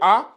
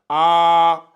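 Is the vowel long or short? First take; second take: short; long. First: The vowel is short. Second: The vowel is drawn out long. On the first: The speaker calls it wrong. "on va plus le lire A" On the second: The speaker calls it right. "on allonge, on le prolonge un peu"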